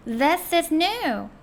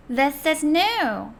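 First: "new" halfway between "누" and "뉴"; new between nu and nyu. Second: "new" with lips set for "누", sound "뉴"; clear new model. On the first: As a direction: shape nu, sound nyu on "new". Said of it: "누와 뉴의 사이 발음을 해주시는 거예요". ("new" 누와 뉴 사이 발음) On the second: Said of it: "입모양을 누로 하고 발음을 뉴로". (누 입모양으로 뉴 소리) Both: Shown as a demonstration.

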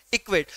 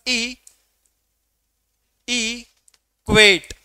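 First: Said in the usual way. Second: "ई", long pause, then a stretched "क्वेट"; "equate" split wide, landing firmly on "क्वेट"; syllables drawn apart. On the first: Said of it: "मैंने एक शब्द लिया यहाँ पर equate". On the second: Shown as a demonstration. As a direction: say "equate" very slowly in two parts, "ई ... क्वेट". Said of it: "equate को pronounce करूंगा तो मैं कहूंगा".

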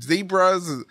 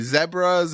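First: Said in the usual way. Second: ZEBRAS with a short first vowel, zeb-ruz; corrected pronunciation. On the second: Real, not acted. Host fixing his word mid-story, ZEBRAS said zeb-ruz. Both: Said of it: "I mean, zebras".

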